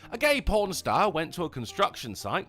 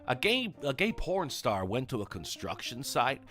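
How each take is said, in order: First: It is told in a non-American accent. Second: It is told in an American accent.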